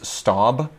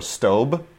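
First: Staub with an open vowel, like "stob"; first pronunciation. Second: Staub with a long O, like "stobe"; alternative pronunciation. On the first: Cookware fan offering one way to pronounce the brand, Staub as "stahb". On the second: Cookware fan offering the other way to pronounce the brand, Staub as "stobe". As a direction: say Staub to rhyme with robe. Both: Shown as a demonstration. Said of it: "depending on how you pronounce it".

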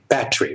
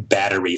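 First: "battery" squeezed to two syllables, like "bat-tree"; imitated British pronunciation. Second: "battery" said the American way, in three syllables; American pronunciation. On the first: American showing a Brit how Brits say it, British pronunciation. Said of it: "And you guys would, would say". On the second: Shown as a demonstration. Comedian's example of American English, American pronunciation. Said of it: "comparisons about, uh, words like battery".

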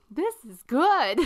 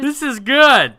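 First: Higher, louder, slow, lightly voiced pleased verdict; a hint of a happy dweeb; nerdy guy tasting. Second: Much higher, louder, slow mock-pleased verdict; nerdy guy tasting. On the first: To his two friends, the nerdy guy praises the toast, lightly mock-pleased. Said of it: "he looks at the other two guys and he's like". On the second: Retelling the movie, the nerdy guy praises tainted toast, mock-pleased. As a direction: savor it like a clueless dweeb. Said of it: "he's like".

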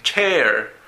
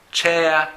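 First: American "chair" ending in a sounded r; non-British, r-ful pronunciation. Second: British "Chair" ending in uh, no r; British pronunciation. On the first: Teacher offers another form of chair, American r pronunciation. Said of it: "O también chair". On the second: Teacher says this chair is more British, British pronunciation. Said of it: "es más británico". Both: Shown as a demonstration.

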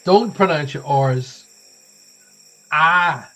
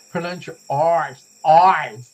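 First: Loud, slow "R's" ending in an open "Ah"; dropped R's. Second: Put-on American accent with hard R's in "R's"; Rhode Island accent. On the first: Shown as a demonstration. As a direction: drop the R in "R's", stretching it to "Ah". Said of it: "that sounds like I'm in pain". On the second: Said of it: "uh, your Rhode Island accent".

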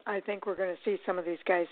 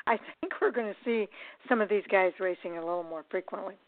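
First: Hiccuping through the words; talking with hiccups. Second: Said in the usual way. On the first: Real, not acted. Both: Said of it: "I've got the hiccups".

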